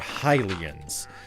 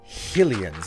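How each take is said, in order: First: The first syllable sounds like 'high'. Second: The first syllable sounds like 'hill'. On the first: The speaker calls it right. "no, they're Hylians" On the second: The speaker calls it wrong. "some people will say they're Hylians"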